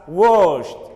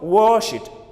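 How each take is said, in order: First: The ending is pronounced as a T sound. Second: The ending is not a plain T sound. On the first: The speaker calls it right. "It should be pronounced as washed" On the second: The speaker calls it wrong. "not wash it"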